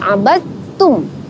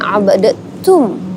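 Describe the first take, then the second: First: The d sound merges into a doubled t. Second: The d sound is pronounced separately before t. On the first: The speaker calls it right. "tetapi abadtum ... langsung ke huruf ta yang bertasydid" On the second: The speaker calls it wrong. "bukan abadtum"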